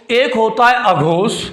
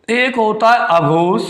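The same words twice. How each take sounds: The two takes are said the same way.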